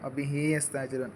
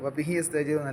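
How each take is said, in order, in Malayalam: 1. bih ന് ശേഷമുള്ള സ്വരം നീട്ടി ദീർഘമായി ഉച്ചരിക്കുന്നു. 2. bih ന് ശേഷമുള്ള സ്വരം ഹ്രസ്വമാണ്. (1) "ആ ഹ നമ്മൾ നീട്ടണം" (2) "അല്ല"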